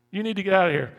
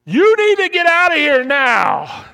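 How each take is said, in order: First: Said in the usual way. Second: High, very loud alarm scream; panicked scream. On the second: Acted. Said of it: "your amygdala screams out and says".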